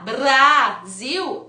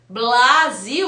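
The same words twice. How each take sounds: First: A trilled tongue-tip R follows the B. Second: An L sound follows the B. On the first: "é o mesmo movimento com a diferença que a ponta da minha língua vai vibrar" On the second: "eu tô usando a ponta da língua aqui no dente, mas eu tô usando o L"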